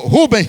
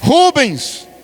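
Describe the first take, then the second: First: The name ends without an s sound. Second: The name ends with an s sound. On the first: The speaker calls it right. "é só Rubem" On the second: The speaker calls it wrong. "eu estou chamando Rubens, está errada a expressão"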